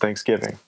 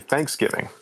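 First: The stress is on the second syllable. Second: The stress is on the first syllable. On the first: This is how people in the Midwest say it. "we emphasize the give" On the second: This is how people in Texas say it. "They say Thanksgiving"

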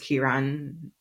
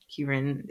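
First: The name is said in a Trinidadian accent. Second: The name is said in a plain accent.

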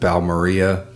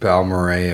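First: The name ends with an "ee-ah" sound. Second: The name ends with an "ay" sound. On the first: The speaker calls it wrong. "we pronounce it Balmaria" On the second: The speaker calls it right. "we did review Balmoray"

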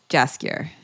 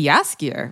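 First: The name begins with a hard J sound. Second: The name begins with a soft J sound. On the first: "Hard J" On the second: "with a soft J"

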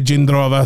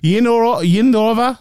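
First: The name begins with a J sound. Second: The name begins with a Y sound. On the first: This is how the speaker would normally say it. "completely different to what I might say Jindrova" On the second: This is how it is said in the Czech Republic. "they said her name, ... Yindrova, something like that"

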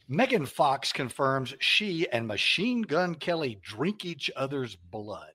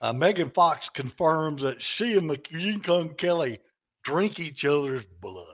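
First: It is read in the speaker's usual plain accent. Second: It is read in a put-on East Texas accent.

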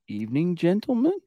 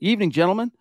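First: It is said as a Ron Burgundy impression. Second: It is said in his normal voice.

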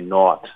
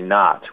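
First: It uses a non-Inland North pronunciation. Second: It uses the Inland North pronunciation. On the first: This is the pronunciation rejected as nonstandard. The speaker calls it wrong. "We're not going to say not" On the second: This is the pronunciation promoted as standard. The speaker calls it right. "We're going to say not. ... those are both features of the Inland Norse speech"

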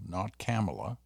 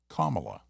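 First: The start does not sound like 'comma'. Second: The start sounds like the word 'comma'. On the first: The speaker calls it wrong. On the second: The speaker calls it right. "Like the punctuation mark"

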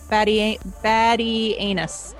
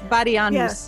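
First: The ending sounds like the word 'anus'. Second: The ending does not sound like 'anus'. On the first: The speaker calls it wrong. "don't say anus" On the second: The speaker calls it right. "That sounds better"

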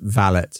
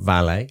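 First: The word ends with a sounded T. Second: The word ends with a silent T. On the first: The speaker calls it right. "It's pronounced valet with a T" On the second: The speaker calls it wrong. "not valet"

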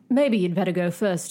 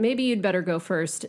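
First: It is read in a put-on British accent. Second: It is read in the speaker's ordinary accent. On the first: The speaker calls it right. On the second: The speaker calls it wrong.

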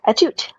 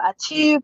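First: The name is said without a French accent. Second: The name is said with a French accent. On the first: The speaker calls it right. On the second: The speaker calls it wrong.

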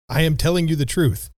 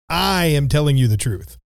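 First: It is said plainly, without emphasis. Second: It is said with strong emphasis.

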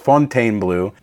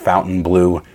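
First: The name is said with French pronunciation. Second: The name is said like English 'Fountain Blue'. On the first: "that's the French pronunciation of it" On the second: "it is pronounced like English Fontainebleau"

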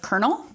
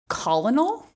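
First: It is said the usual spoken way. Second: It is said letter by letter, as spelled. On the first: The speaker calls it right. "instead of colonel" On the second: The speaker calls it wrong. "I can't tell you how long I said colonel"

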